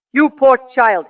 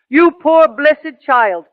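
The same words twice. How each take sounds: First: Said in the usual way. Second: Tender, slow comfort. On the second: Retold or imitated. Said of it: "He was so touched".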